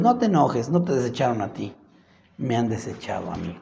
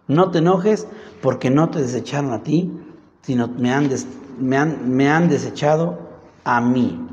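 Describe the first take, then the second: First: Softer, sinking into a calm reassurance; calm him down gently; soothing God. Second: Said in the usual way. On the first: Acted. God comforting angry Samuel, softening and low. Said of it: "Y dijo Dios". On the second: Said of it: "Así le dijeron".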